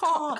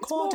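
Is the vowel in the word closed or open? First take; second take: open; closed. First: The vowel is said open, toward the palate. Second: The vowel is said closed, not opened up. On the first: The speaker calls it right. "You need to kind of open It up" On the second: The speaker calls it wrong. "it's not quart"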